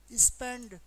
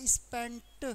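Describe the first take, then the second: First: स्पेंड ending in a voiced ड; taught pronunciation. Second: स्पेंट with a released, separate ट; taught pronunciation. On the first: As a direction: say स्पेंड firmly, "d" at the end. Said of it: "क्या बोलोगे?". (स्पेंड, आखिर में 'ड' पर ज़ोर) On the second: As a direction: finish स्पेंट on a crisp "t", not "d". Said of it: "तो ये हो जाएगा स्पेंट". (स्पेंट, आखिर में साफ़ 'ट') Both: Shown as a demonstration.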